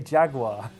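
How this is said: Jaguar is pronounced in an American way. "I want to say Jaguar because... that's uh, Americanized English"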